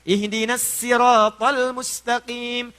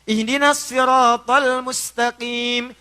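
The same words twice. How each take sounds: First: Sirat begins with a plain, light s sound. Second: Sirat begins with an emphatic, heavy s sound.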